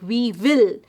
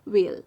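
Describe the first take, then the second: First: It is said as two separate full words. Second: It is said as one shortened syllable. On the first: The speaker calls it wrong. "we should not pronounce these contractions just the way we pronounce it when they are kept individually" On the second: The speaker calls it right. "We'll just shorten it and we'll say will"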